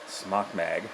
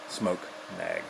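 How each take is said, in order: First: The first word does not sound like 'smoke'. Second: The first word sounds like 'smoke'. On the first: The speaker calls it wrong. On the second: The speaker calls it right.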